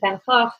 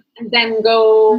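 First: The name is said the Dutch way. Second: The name is said the usual English way.

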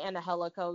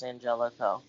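First: The name is pronounced the Spanish way. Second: The name is pronounced the English way. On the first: "that's just the Spanish pronunciation" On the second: "he's Caucasian, so it's probably just Angelico"

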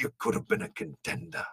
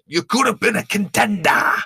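First: It is delivered in a subdued, mellow way. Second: It is delivered with exaggerated, overdramatic emphasis.

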